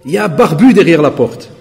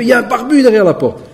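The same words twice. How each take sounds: First: Said in the usual way. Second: Voix du voisin, plus aiguë, criée en riant; cri imité. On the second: Retold or imitated. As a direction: imiter le voisin qui crie à sa femme. (le voisin prévient sa femme derrière la porte, cri imité plus aigu) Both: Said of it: "Wallah, il crie".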